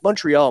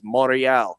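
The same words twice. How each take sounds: First: It is said with an English accent. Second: It is said with a French accent. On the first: The speaker calls it right. "No, it's Montreal, motherfucker. You're speaking English over here" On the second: The speaker calls it wrong. "still speak with a French accent while they're in Ontario that says Montreal"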